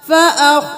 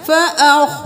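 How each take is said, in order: The two takes are said the same way.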